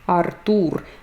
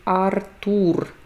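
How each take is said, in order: First: The stress falls on the second syllable. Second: The same.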